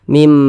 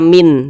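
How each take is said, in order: First: The word ends with an m sound. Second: The word ends with an n sound. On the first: The speaker calls it right. "Kita baca mim ba'dihi" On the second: The speaker calls it wrong. "jangan dibaca min"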